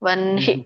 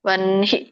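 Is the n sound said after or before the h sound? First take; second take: before; before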